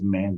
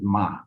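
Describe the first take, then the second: First: The word ends with a clear n sound. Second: The word ends on the vowel, no n. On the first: The speaker calls it wrong. "it is not pronounced as man. That's an American accent" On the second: The speaker calls it right. "It's pronounced as ma. ... the N is silent"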